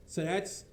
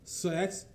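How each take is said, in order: Both takes have the same delivery.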